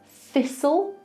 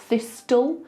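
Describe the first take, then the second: First: The t sound is silent in the middle. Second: The t sound is pronounced in the middle. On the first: The speaker calls it right. "It's the same with this" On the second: The speaker calls it wrong. "not thistle"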